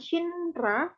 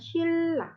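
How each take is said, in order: First: The middle sounds as N followed by R. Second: The middle sounds as a double L. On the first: The speaker calls it wrong. "bacanya tuh bukan Shinra" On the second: The speaker calls it right. "kalau dibaca jadinya Shilla"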